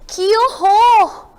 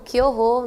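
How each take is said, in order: First: It is said with a shocked, horrified tone. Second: It is said calmly, without shock. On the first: The speaker is appalled. "A pessoa ficou espantada" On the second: The speaker is not really affected. "Sem espanto ficaria como?"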